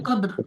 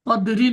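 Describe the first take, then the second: First: The word ends on the bare r consonant. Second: The word ends with an added i vowel. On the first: The speaker calls it right. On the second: The speaker calls it wrong. "কদরি না"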